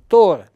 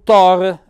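First: The O vowel is closed. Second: The O vowel is open. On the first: This is the pronunciation used elsewhere. "la O diventa chiusa" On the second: This is the local pronunciation. "per noi archesi"

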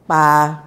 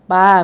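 First: The syllable is said with a low tone. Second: The syllable is said without a low tone. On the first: It means forest. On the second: It means to throw.

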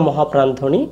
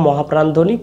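The two takes are said the same way.

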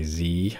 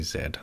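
First: It is said the American way, as zee. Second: It is said the Canadian way, as zed.

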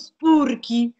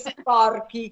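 First: The first vowel sounds like 'u'. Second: The first vowel sounds like 'o'. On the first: The speaker calls it wrong. "forse sono spurchi, invece che sporchi" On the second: The speaker calls it right. "come dovrebbe essere detto"

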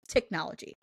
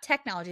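First: The word is said in an imitated pronunciation. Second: The word is said in an ordinary pronunciation. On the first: This is how the imitated man says it. The speaker calls it right. "it's technology. Is what he says" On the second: This is not how the imitated man says it. The speaker calls it wrong. "Not technology"

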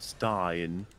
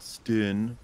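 First: The vowel sounds like 'eye', as in 'line'. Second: The vowel is short, as in 'tin'. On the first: The speaker calls it right. "but Stein" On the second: The speaker calls it wrong. "it's not Stin"

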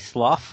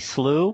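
First: The ending sounds like the uff in enough. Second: The vowel sounds like the oo in through. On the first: "like enough, so it'd be slough" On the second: "like through, so it'd be slew"

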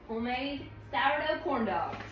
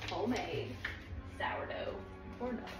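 First: It is said at a normal speed. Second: It is said slowly and drawn out.

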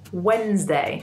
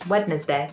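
First: The middle D is dropped, giving a Z sound. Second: Every letter is sounded, including the middle D. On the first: This is how the word is said today. "we ended up saying Wednesday. So it sounds like there's a Z in there too" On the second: This is how the word used to be said. "if we pronounce this word how it's spelt, it would be Wednesday"

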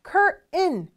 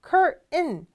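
First: American accent, the t becomes a nasal sound. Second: American accent, the t becomes a nasal sound.

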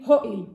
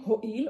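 First: It is pronounced in Ashkenazi yeshiva style. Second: It is pronounced in plain Modern Israeli style. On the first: The speaker calls it right. "אומרים הועיל" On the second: The speaker calls it wrong. "לא אומרים הועיל"

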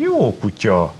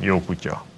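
First: It is said warmly and joyfully. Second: It is said curtly and with annoyance. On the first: The dog is being praised with real affection. "akkor kedvesen mondom, örömteljen mondom" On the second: The dog is being told to go away. "vagy azt, hogy jó van. Majd csak hagyjál már"

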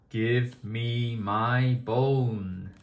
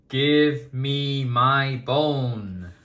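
First: It is said in a small, quiet voice. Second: It is said in a big, loud voice.

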